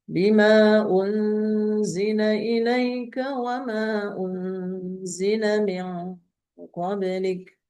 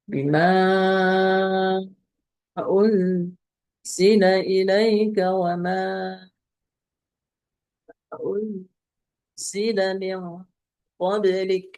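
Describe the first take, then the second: First: The lengthened vowels are held only briefly. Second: The lengthened vowels are held very long. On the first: "Kalau qasar" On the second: "itu kalau tul"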